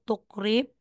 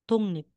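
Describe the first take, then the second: First: The middle consonants sound like k followed by r. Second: The middle consonants sound like ng followed by n. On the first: The speaker calls it wrong. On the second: The speaker calls it right. "Magiging tungnip"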